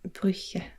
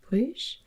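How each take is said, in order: First: The name is pronounced the Dutch way. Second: The name is pronounced the French way. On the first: "I think it's Brugge in uh, Dutch" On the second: "if we pronounce it in French"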